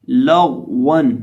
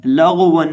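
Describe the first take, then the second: First: लगवन slow, with a thick, still ग; unbounced heavy ghain. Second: लगवन with the middle consonant shaken loose; wrongly bounced ghain. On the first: Teacher modelling the correct reading, slow लगवन with heavy unbounced ग. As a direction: hold the ग in लगवन without bouncing, then round the व. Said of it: "बिना हिलाए पढ़ा जाएगा और मोटा करके". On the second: Teacher showing learners what to avoid, bounced ग in लगवन. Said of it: "बिना हिलाए पढ़ा जाएगा". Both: Shown as a demonstration.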